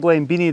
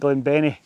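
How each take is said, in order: First: The middle syllable sounds like 'bean'. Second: The middle syllable sounds like 'Ben'. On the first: The speaker calls it wrong. "It's not Glenbeanie" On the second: The speaker calls it right. "the farmer pronounced it Glenbenny"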